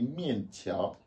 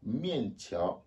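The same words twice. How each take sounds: The two takes are said the same way.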